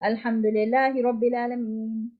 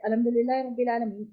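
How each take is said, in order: First: The voice and breath stop after the phrase. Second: The voice runs on into the next verse. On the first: The speaker calls it right. "आवाज भी टूटनी है, सांस भी टूटनी है।" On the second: The speaker calls it wrong. "हमारी ना सांस टूटी है ना आवाज टूटी है और हम दूसरी आयत पे चले गए, ये गलत है।"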